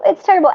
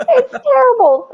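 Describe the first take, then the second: First: Said in the usual way. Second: Mock horror. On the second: Real, not acted.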